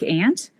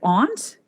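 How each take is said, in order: First: The vowel is flat like 'ant', older style. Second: The vowel is a broad 'ah', Southern British style.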